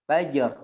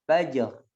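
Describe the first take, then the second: No difference in how they are said.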